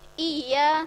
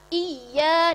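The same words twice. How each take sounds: First: The y sound is short and single. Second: The y sound is doubled and pressed. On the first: The speaker calls it wrong. "ada yang kurang hurufnya satu" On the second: The speaker calls it right. "Yang benar iya ditekan"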